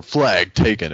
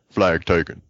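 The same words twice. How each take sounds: First: Imitated standard game announcer; measured announcer call in the usual register. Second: Lightly imitated character announcer, twisted vowels; a hint of a character voice on the call; Jerome. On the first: Quoting the game's usual narration, mock announcer. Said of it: "like a different announcer". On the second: Swapping in a new game announcer, lightly put-on character voice. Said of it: "it's just Jerome like".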